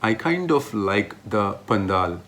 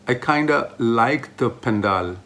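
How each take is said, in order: First: Kind of is said as two separate words. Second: Kind of is reduced to one blended word. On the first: "what I'm trying to say is" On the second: "Kinda, which you can use in place of kind of"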